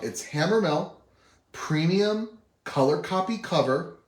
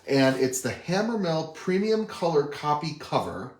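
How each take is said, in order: First: It is said slowly. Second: It is said at normal speed.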